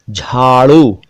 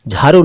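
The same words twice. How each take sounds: First: झाड़ू with a retroflex flap ड़; correct flap ड़. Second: झाड़ू said as jharu, plain r; wrong r for ड़. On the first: Teacher models a word for learners, झाड़ू with flap ड़. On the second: Teacher rejects this version, झाड़ू with plain r. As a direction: put र for ड़ in झाड़ू. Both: Shown as a demonstration. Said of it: "नहीं".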